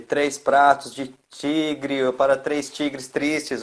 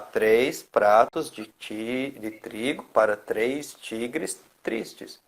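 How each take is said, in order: First: It is rushed and the words tangle together. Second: It is slower and each word comes out separately. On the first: The speaker is anxious. The speaker calls it wrong. "envolveu, enrolou tudo" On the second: The speaker is calm and in control. The speaker calls it right. "Com mais calma, desenrola melhor"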